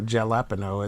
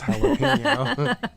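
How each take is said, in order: First: It begins with an English J sound. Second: It begins with an English H sound. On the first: The speaker calls it wrong. "It's not jalapeno" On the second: The speaker calls it right. "The J is pronounced like a H"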